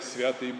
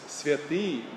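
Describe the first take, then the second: First: The stress is on the first syllable. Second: The stress is on the second syllable. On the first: The speaker calls it wrong. "people say Святый Божий ... it's not" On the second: The speaker calls it right. "It's on the I and not on the Ya"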